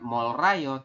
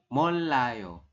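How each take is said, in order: First: The middle consonant is an R sound. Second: The middle consonant is an L sound. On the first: The speaker calls it wrong. "bukan Molrayo" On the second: The speaker calls it right. "tapi Molayo"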